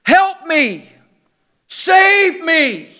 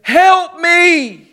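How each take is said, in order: First: A mildly raised, imitated plea from close by; mock cry for help. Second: Distant cry for help. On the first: Preacher voicing overboard people nearby, mild mock cry. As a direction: voice a drowning person near the boat, lightly. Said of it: "there's screaming people all around you". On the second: Retold or imitated. Preacher voicing a far-off drowning person, distant mock cry. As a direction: call as if from two hundred yards across the water. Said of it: "But there at the distance".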